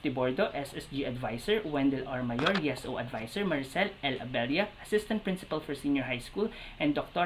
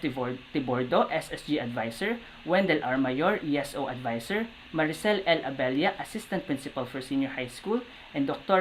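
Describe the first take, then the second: The two takes are said the same way.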